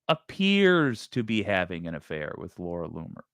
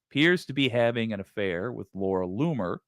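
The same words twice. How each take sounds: First: The word 'appears' carries strong stress. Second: The word 'appears' carries no special stress. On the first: It only seems so; whether it is true is not claimed. The speaker calls it right. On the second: It states the affair as the news. The speaker calls it wrong.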